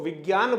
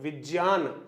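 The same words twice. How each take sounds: First: The word is said the common everyday way. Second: The word is said with careful, precise pronunciation. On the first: The speaker calls it wrong. "हम प्रचलन में इसको विज्ञान बोलते हैं, जो उच्चारण के दृष्टिकोण से अशुद्ध है" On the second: The speaker calls it right. "इसका सही उच्चारण है, सही प्रोनाउंसिएशन है।"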